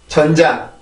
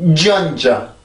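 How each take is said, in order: First: The first consonant is light, with little air. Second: The first consonant bursts out with strong air. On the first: "한국어를 먼저 발음을 해볼게요" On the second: "영어입니다"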